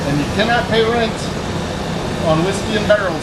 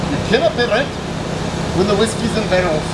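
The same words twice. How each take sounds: First: A bad, lightly done Scottish accent on "you cannot pay rent"; mock Scottish brogue, barely there; terrible Scottish accent. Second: A second try at a Scottish accent, a bit higher; retry the hammy Scottish accent, a little closer; Scottish accent again. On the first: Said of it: "My terrible Scottish accent". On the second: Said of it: "Try that again". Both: Shown as a demonstration.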